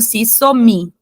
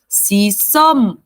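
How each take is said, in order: First: The final m is released with an added i. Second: The final m is held closed with no vowel. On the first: The speaker calls it wrong. "a gente não pode ler, por exemplo, se somi, não" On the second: The speaker calls it right. "esse M fica travadinho aqui no seu lábio"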